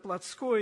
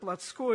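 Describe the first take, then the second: First: The stress is moved to another syllable. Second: The same.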